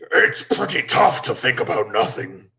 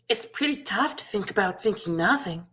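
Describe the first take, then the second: First: It is said in a big scary monster voice. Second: It is said in a little girl voice.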